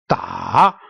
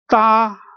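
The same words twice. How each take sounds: First: The pitch dips down and then rises. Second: The pitch stays level and flat. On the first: "going down and then upward"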